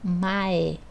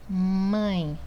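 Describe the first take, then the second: First: The vowel is oral, not nasal. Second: The vowel is nasal. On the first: The speaker calls it wrong. "Eu não falo mae" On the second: The speaker calls it right. "eu falo mãe"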